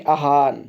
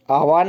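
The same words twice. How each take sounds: First: आह्वान said as aa-haan, no v; correct form aa-haan. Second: आह्वान with a clear v; wrong form aah-vaan. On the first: Teacher giving her class's answer, आह्वान as aa-haan. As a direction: leave the v out of आह्वान. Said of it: "ये शुद्ध है". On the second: Teacher rejecting this form, आह्वान with audible v. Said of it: "आह्वान नहीं". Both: Shown as a demonstration.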